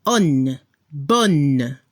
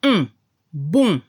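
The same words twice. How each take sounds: First: ON, BON each closed on a clear n; low, sound the final n in ON, BON; n as in Spanish. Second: UN, BON as pure nasal vowels, silent n; blocked-nose nasal. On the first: French teacher demonstrating the feminine, ON, BON with Spanish-like n. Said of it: "lo pronuncia como en español". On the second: French teacher demonstrating the masculine sound, UN, BON nasalised. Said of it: "como si tenía la nariz tapada". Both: Shown as a demonstration.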